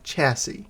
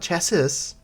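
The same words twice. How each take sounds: First: The final s is silent. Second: The final s is pronounced. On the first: The speaker calls it right. "The last S is silent" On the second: The speaker calls it wrong. "Not chassis"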